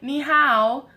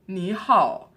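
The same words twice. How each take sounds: First: It is said with an American accent. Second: It is said with a Chinese accent. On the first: The speaker calls it wrong. "like with an American accent" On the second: The speaker calls it right. "you need to speak with their accent"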